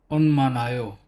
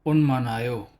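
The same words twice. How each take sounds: Both takes have the same delivery.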